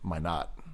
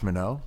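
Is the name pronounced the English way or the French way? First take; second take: English; French. First: The name is pronounced the English way. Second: The name is pronounced the French way. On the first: The speaker calls it right. "actually I guess it's actually my not" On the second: The speaker calls it wrong. "I'm just so used to these French pronunciations"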